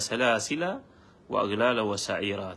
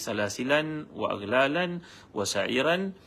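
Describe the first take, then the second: First: The words end in plain vowels without n. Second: The words end with an added n sound. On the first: This follows the reading that reached us. "Tidak ada tanwin kat situ" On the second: This follows another reading matching a dialect pattern. "kalau dibaca dengan tanwin di sini"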